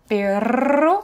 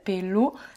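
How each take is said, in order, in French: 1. La consonne du milieu est un R fortement roulé. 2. La consonne du milieu ressemble à un L. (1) "J'insiste, j'exagère exprès" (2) "Ça faisait plutôt un L, ça faisait pelo"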